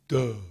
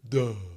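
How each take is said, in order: The two takes are said the same way.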